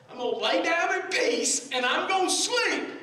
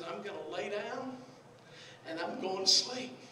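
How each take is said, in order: First: Loud, high, emphatic delivery; raised-voice preacher quoting scripture; preached declaration. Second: Said in the usual way. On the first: Retold or imitated. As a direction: proclaim it to the whole congregation. Same verse repeated, preached loud.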